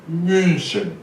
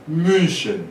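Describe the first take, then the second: Both takes have the same delivery.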